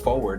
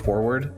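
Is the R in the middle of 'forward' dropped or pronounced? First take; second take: dropped; pronounced. First: The R in the middle is dropped. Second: The R in the middle is clearly pronounced. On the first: The speaker calls it wrong. "who the fuck says forward?" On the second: The speaker calls it right. "I exclusively use forward ... I'm the only one that pronounces the R"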